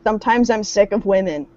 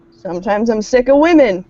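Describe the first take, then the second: First: Said in the usual way. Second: Punchier, louder exasperated line; louder mock-dramatic. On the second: Shown as a demonstration.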